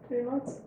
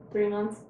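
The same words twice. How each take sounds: First: "Three months?" with a rise at the end; questioning rise. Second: Said in the usual way. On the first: Real, not acted. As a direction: ask "Three months?" doubting it, rising on "months".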